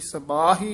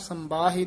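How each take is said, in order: First: There is no nasal sound before the b. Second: A nasal m sound comes before the b. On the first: The speaker calls it right. "ਸਬਾਹੀ ਹੀ ਉਚਾਰਨ ਕਰਨਾ" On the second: The speaker calls it wrong. "ਸੰਬਾਹੀ ਨਹੀਂ ਕਹਿਣਾ, ਟਿੱਪੀ ਨਹੀਂ ਲੱਗੀ ਹੋਈ ਇੱਥੇ"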